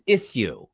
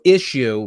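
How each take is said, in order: First: The word is pronounced in an unusual, affected way. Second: The word is pronounced in the ordinary way.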